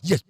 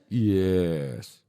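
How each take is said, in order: First: It is said loudly and firmly. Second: It is said softly and weakly.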